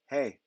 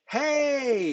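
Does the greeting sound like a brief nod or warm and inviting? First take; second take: brief nod; warm inviting. First: It sounds like a brief passing acknowledgment. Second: It sounds warm, like an invitation to talk.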